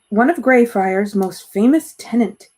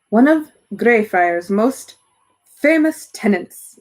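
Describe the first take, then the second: First: It is said in the reader's plain voice. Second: It is said in a posh British accent.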